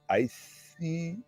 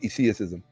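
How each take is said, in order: First: The first vowel is long, like 'eye'. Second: The first vowel is short. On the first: The speaker calls it wrong. "no, no" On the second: The speaker calls it right. "it has to be with the short vowel"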